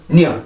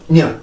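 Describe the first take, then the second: Both takes have the same delivery.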